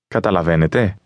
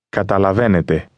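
First: It has the intonation of a question. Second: It has the intonation of a statement.

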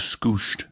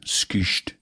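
First: The vowel is a plain back oo sound. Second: The vowel is fronted like French u. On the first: The speaker calls it wrong. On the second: The speaker calls it right.

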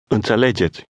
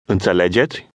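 First: It is said as a statement, falling at the end. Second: It is said as a question, rising at the end.

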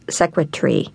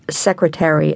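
First: One syllable is dropped, leaving three. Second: All four syllables are pronounced.

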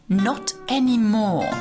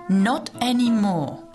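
No difference in how they are said.

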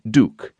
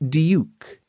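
First: The word has no 'y' glide, like 'dook'. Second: The word has a 'y' glide, like 'dyook'. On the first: This is how it is said in the States. The speaker calls it wrong. "and not duke, as you might say" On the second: This is how it is said in England. The speaker calls it right. "pronounced in England with a youp in it"

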